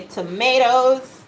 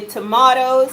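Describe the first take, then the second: First: "tomatoes" said tuh-MAY-toes; "tomatoes" with a long ay vowel. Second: "tomatoes" with a flat a, tuh-MAH-roes; American tomatoes. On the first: Listing ways to say it, "tomatoes" tuh-MAY-toes. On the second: Explaining ways to say it, "tomatoes" the American way. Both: Shown as a demonstration. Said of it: "however you say it".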